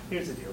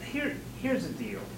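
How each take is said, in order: First: It is smooth, with no stutter or pauses. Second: It is halting, with a stutter and pauses. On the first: The speaker calls it right. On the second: The speaker calls it wrong.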